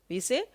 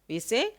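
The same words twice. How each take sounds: Both takes have the same delivery.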